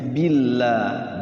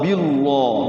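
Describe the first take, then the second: First: The 'l' sound is light and thin. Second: The 'l' sound is heavy and thick. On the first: The speaker calls it right. "Tapi bacanya tipis" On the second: The speaker calls it wrong. "Tidak boleh dibaca bismillah atau billah ya"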